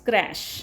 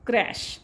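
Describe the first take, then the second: Both takes have the same delivery.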